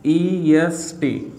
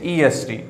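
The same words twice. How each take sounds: First: EST drawn out, letter by letter; very slow spelling of EST for learners; spelled out slowly. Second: Said in the usual way. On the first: Shown as a demonstration. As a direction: stretch each letter of EST, pausing between them. Spelling out the new ending.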